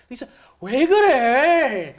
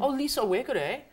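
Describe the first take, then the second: First: It sounds irritated and reproachful. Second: It sounds worried and caring.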